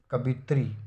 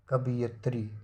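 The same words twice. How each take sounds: First: कवित्री in three syllables; wrong form. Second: कवियत्री with an added ya; teacher's corrected form. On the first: Teacher showing the error, कवित्री without a ya. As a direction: say कवित्री as ka-bi-tri. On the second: Teacher giving the correction, कवियत्री with ya. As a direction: say कवियत्री as ka-bi-yat-ri. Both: Shown as a demonstration.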